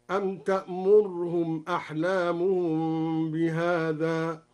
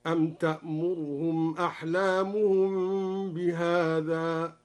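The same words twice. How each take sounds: First: تأمرهم with the ra fully silent, tamurhum, slow; silent ra demo. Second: تأمرهم with the damma on the ra barely sounded, slow; slurred damma demo. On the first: Teacher demonstrating the silent ra variant, slow recitation. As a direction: say تأمرهم with no vowel on the ra, slowly. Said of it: "أو إسكان الراء". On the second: Teacher demonstrating the reduced damma, slow recitation. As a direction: glide over the ra in تأمرهم, slowly. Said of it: "باختلاس ضمة الراء". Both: Shown as a demonstration.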